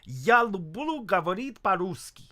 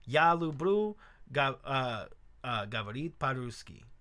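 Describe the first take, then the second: First: It is said with a native Russian accent. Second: It is said with an American accent. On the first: "a Russian would be like" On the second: "American learning how to say it, I'd be like"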